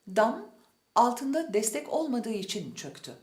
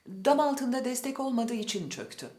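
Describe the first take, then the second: First: A short pause separates the words, without linking. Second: The words are linked together without any pause. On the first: A key word is made to stand out. The speaker calls it right. "ulama yapmayıp kısa bir duraklama yapmalıyız" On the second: No key word stands out. The speaker calls it wrong. "bir de ulama yaparak söyleyelim"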